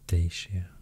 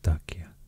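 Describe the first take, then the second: First: It is said with an English-style pronunciation. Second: It is said with a Roman-style pronunciation. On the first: "the English pronunciation of these are usually maybe" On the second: "but I think the Roman pronunciation is more like Dacia"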